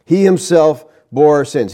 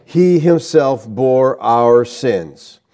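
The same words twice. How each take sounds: First: "himself" leaned on, then falling; stress on himself. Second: Slow scripture reading. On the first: Preacher stressing that he bore sins alone, weight on "himself". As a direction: hit "himself" firmly in the line. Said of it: "The emphatic personal pronoun indicates". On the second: Preacher reading the verse to the congregation, slow and solemn. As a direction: read slowly, each word weighed. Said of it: "here is emphatic". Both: Shown as a demonstration.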